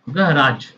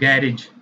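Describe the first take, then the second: First: It is said in an American accent. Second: It is said in a British accent. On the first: "American English में" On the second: "British में"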